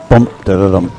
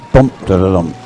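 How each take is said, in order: Both takes have the same delivery.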